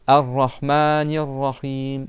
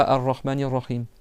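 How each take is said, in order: First: AR-RAHMANIR RAHIM slow, with long "maa" and "hiim"; prolonged vowels. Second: AR-RAHMANIR RAHIM run through with short vowels; no prolongation. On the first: Teacher models what must be prolonged, slow held vowels. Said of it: "Faut déjà prolonger". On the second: Teacher shows pupils the wrong way, vowels unprolonged. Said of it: "c'est pas Ar-Rahmanir Rahim". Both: Shown as a demonstration.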